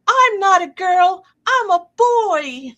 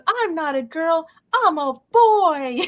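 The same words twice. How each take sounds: First: High, loud, slow silly shout; husband's hammed-up high-pitched proclamation; playful announcement. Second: High, slow silly proclamation; husband's hammed-up high-pitched shout; playful announcement. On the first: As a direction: burst out of the box with a goofy high cry. Husband jumps out in costume. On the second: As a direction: crow it out like a goofy grown man. Husband's line retold again.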